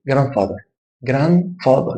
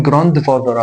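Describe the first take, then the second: First: "جراند فاذر" said as "gran-father", no D; silent D. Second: "جراند فاذر" with a full D, "gran-duh-father"; sounded D. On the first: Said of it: "ما قلتش الدي". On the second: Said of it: "انا مش هقول". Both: Shown as a demonstration.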